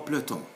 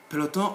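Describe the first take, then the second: First: "peloton" squeezed to plo-ton; optional e dropped. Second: "Peloton" in three syllables, pe-lo-ton; optional e pronounced. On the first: Teacher repeating the second option, e dropped. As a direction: skip the first e in "peloton". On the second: Teacher repeating the first option, e kept. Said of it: "It's up to you to say". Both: Shown as a demonstration.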